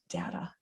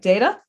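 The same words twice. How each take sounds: First: The first vowel is a short A sound. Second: The first vowel is a long A sound. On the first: "or is it a short A, data?" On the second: "Is it a long A, like data"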